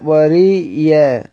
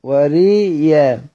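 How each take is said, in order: No difference in how they are said.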